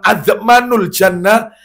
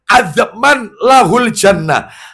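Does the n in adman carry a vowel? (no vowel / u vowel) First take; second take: u vowel; no vowel. First: The n of adman is followed by a u vowel. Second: The n of adman has no vowel after it. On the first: The certainty is only fifty-fifty. "Tapi kalau di dhamma" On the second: Entry to paradise is fully guaranteed. "Kalau disukun"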